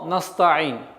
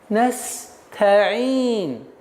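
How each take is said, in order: First: The hissing s sound is cut short. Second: The hissing s sound is held long. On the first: The speaker calls it wrong. "как только вы уменьшаете ... время правильного произношения звука син ... что является очень грубейшей ошибкой" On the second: The speaker calls it right. "вот этот промежуток времени дает вам возможность легче, спокойно, мягче произнести звук та"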